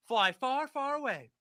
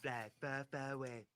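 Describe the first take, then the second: First: High, loud reading in own voice; animated read-out. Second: Donald Trump. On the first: Host reading Trump's post to viewers, animated and high. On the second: Host reading the post aloud as the former president. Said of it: "I'm gonna read this in Donald Trump voice". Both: Acted.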